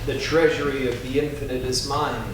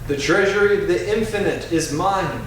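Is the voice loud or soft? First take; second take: soft; loud. First: It is said in a softer, quieter voice. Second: It is said in a strong, loud voice. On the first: "Softer now" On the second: "first in a strong voice"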